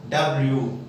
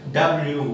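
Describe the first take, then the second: The two takes are said the same way.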